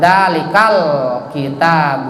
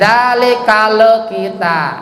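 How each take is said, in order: First: The L is held with no bouncing echo. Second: The L is released with a bouncing echo. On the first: The speaker calls it right. "tempelkan lidahnya, lisannya ke langit. Ya, jangan dipantulkan" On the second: The speaker calls it wrong. "itu dipantulkan, berarti itu jadi kol kol kola"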